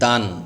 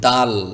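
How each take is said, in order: First: The syllable ends with an n sound. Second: The syllable ends with an l sound. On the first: The speaker calls it wrong. "দান বলা যাবে না" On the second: The speaker calls it right. "সেজন্য আপনাকে বলতে হবে এভাবে"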